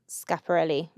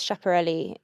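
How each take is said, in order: First: The name is said in a careful pronunciation. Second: The name is said in a casual pronunciation. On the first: The speaker calls it right. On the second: The speaker calls it wrong.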